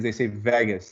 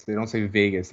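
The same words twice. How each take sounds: First: Vegas with a flat A, "VAG-us"; American pronunciation. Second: Vegas with a long A, "VAY-gus"; correct pronunciation. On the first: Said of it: "it's like a weird accent". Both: Shown as a demonstration.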